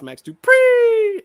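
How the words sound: The pitch rises upward on the name. The speaker calls it right. "It goes up"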